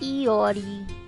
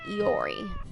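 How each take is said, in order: First: The name is carefully enunciated, each syllable distinct. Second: The name is said quickly, syllables run together. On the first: The speaker calls it right. "I know it's more like Iori" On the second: The speaker calls it wrong. "than Iori"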